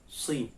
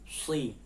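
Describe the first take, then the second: The two takes are said the same way.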